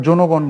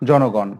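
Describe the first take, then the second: First: জনগণ mispronounced "jonogon" with rounded o; wrong o vowel. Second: জনগণ as "jɔnogɔn", open first vowel; unchanged open vowel. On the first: Teacher rejecting a form for students, o-vowel জনগণ. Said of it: "বলি না". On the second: Teacher giving the correct example, open-vowel জনগণ. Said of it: "অ এর উচ্চারণ অবিকৃত". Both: Shown as a demonstration.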